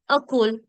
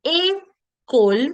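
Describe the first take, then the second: First: "a cool" starting on a schwa, "uh-kol"; unaccented first vowel. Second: "a, cool" as "ay, kol"; accented first vowel. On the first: Teacher showing école without its accent, "a cool" as "uh-kol". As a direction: open "a cool" with a dull "uh". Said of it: "the next one would have been". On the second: Teacher showing école with its accent, "a, cool" as "ay, kol". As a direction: clear "ay", pause, then "cool" as "kol". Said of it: "the sound of a becomes a". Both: Shown as a demonstration.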